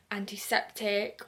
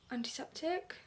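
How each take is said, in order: First: Said in the usual way. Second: "antiseptic" soft and higher, rising in doubt; questioning rise. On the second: Real, not acted. Unsure what the spray was, "antiseptic" as a soft rising question. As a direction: ask "antiseptic" quietly, unsure it's right. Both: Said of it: "Don't know".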